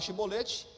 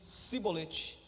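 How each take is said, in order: First: The word begins with an 'sh' sound. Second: The word begins with an 's' sound. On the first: This is the correct pronunciation of the password. The speaker calls it right. "o som é de C H" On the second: The speaker cannot say the 'sh' sound and is exposed as an outsider. The speaker calls it wrong. "eles diziam cibolete, não podendo pronunciar corretamente a palavra"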